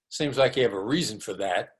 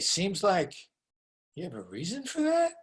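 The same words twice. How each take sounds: First: It sounds contemptuous and dismissive. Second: It sounds curious and genuinely interested. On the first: The listener is being called an idiot. The speaker calls it wrong. "my tone of voice said, you're an idiot" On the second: The listener is invited to explain their reasons. The speaker calls it right. "my tone of voice there was curious, actually interested"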